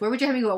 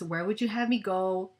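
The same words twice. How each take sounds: First: It is said very fast and hurried. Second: It is said slowly and calmly.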